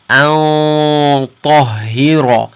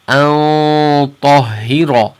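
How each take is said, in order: First: The nasal sound is heavy, held far back. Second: The nasal sound is heavy, held far back.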